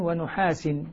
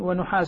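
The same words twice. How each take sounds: First: The word ends with an i vowel (genitive). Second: The word ends with a u vowel (nominative). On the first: Copper is joined to fire as what the flame is made of. "يقرآن بجر كلمة نحاس" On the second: Copper is sent down as a separate thing. "أي يرسل عليكم نحاس"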